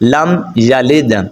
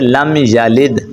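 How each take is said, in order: First: The words are said separately with a break. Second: The words are joined together without a break. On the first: "میں رک کر پڑھ رہا ہوں" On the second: "آپ نے ملا کے پڑھنا ہے"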